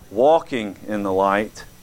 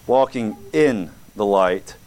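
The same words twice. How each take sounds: First: It is said plainly with no special stress. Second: The word "in" is stressed.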